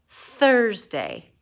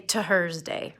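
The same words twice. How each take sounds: First: The word begins with a th sound. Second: The word begins with a t sound. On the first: The speaker calls it right. "This one has more of a th" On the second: The speaker calls it wrong. "it doesn't sound exactly like a T. We don't say Thursday"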